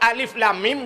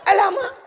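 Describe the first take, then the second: First: Each letter name is spoken fully and separately. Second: The letter names are merged into one short word. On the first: The speaker calls it right. "ijeh Quran, alif lam mim" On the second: The speaker calls it wrong. "dia baca alama"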